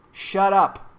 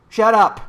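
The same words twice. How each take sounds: First: Said in the usual way. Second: Loud shut up. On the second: Real, not acted. Rant against scared people.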